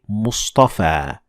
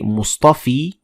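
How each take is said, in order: First: The word ends in an 'a' sound. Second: The word ends in an 'ee' sound. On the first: The speaker calls it right. "we say" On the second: The speaker calls it wrong. "we don't say"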